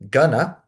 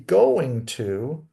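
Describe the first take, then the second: First: The words are reduced and blended into one. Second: Both words are said fully and separately. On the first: "or in, again, gonna" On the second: "the phrase be going to"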